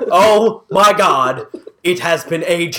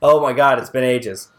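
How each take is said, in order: First: It is said in an excited, enthused tone. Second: It is said in a flat, unenthused tone.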